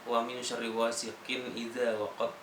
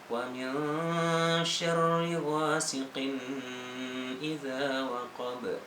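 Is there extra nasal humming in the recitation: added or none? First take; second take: none; added. First: No extra nasal hum is added anywhere. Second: A nasal hum is added and held long. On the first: The speaker calls it right. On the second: The speaker calls it wrong. "menambahkan dengung, seharusnya tidak berdengung"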